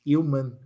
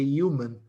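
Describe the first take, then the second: Both takes have the same delivery.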